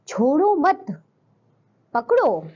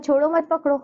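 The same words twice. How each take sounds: First: There is a pause after the word mat. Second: It is said straight through with no pause. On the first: Do not let go; hold on. "छोड़ो मत पकड़ो यानी कि पकड़ना है, छोड़ना नहीं है" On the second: It is unclear whether to let go or hold. "विराम चिन्ह नहीं लगा तो हमें नहीं पता छोड़ना है या पकड़ना है"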